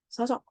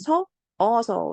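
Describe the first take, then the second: First: The repeated vowel is merged into one. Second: Two separate vowels are pronounced in a row. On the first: The speaker calls it right. "하나를 빼고 발음하는" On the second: The speaker calls it wrong. "이렇게 안 하고"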